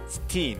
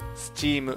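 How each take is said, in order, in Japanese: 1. 「s」の後は普通の「t」の音です。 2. 「s」の後は「ch」の音です。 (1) "実際に口にしてみてチーとなっていないかセルフチェック" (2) "前半で日本語訳の説明としてカタカナ語を導入します"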